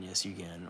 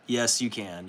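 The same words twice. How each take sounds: First: Much softer echo of the answer; softer repeat. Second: Said in the usual way. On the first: Real, not acted. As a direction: say it again, almost under breath.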